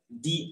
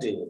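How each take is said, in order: First: The vowel is long and clear, like 'thee'. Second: The vowel is short and weak, like 'thuh'. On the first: The speaker calls it right. "tapi bacanya the ice" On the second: The speaker calls it wrong. "kita nggak bisa lagi baca the"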